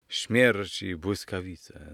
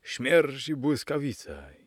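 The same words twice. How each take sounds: First: Slow, weighty mock-dramatic exclamation; drawn out like a stage oath; exclaimed. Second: Slow, high-pitched character shout; stage oath flung out, pitched higher; exclaimed again. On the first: Young gentleman swearing at the uncle, slow exclamation. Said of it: "zawołał młody dżentelmen". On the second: Young gentleman shouting his oath again, high slow shout. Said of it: "znów zawołał". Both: A narrator's reading.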